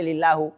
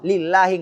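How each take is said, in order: First: The word ends with a u vowel. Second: The word ends with an i vowel. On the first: The speaker calls it wrong. "nggak boleh" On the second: The speaker calls it right. "kata Allah harus kasrah"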